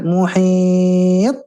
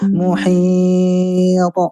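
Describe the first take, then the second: First: The final t is held back before release. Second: The final t is released at once with a bounce. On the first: The speaker calls it wrong. "Jangan ditahan" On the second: The speaker calls it right. "langsung ya"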